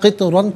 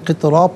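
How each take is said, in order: First: The word ends with an n sound. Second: The word ends with a long a. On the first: The reading continues without stopping. "क़ितरन पढ़ेंगे" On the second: The reader stops at this word. "वफ़ की सूरत में क़ितरा पढ़ा जाएगा"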